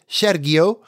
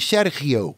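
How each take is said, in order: First: The G sound is said hard. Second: The G sound is said soft. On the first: The speaker calls it wrong. "The correct way to say his name is not, like I said" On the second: The speaker calls it right. "You soften the G"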